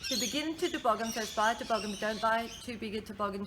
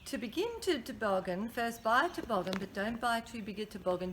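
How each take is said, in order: First: It is said at a faster pace. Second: It is said at a normal pace.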